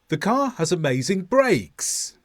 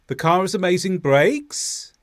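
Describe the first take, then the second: First: The voice falls at the end. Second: The voice rises at the end. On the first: It is a confident statement. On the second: It sounds like a question inviting a reply.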